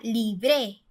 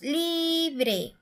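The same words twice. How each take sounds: First: The stress is on the last syllable. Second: The stress is on the first syllable. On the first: The speaker calls it wrong. "Si fuera la última sílaba, diría libre" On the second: The speaker calls it right. "la sílaba tónica está en la li"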